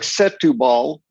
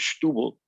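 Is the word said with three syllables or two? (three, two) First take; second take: three; two. First: The word is said with three full syllables. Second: The word is squeezed into two short syllables. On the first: The speaker calls it wrong. "looks like Setubal" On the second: The speaker calls it right. "it's pronounced Stubble"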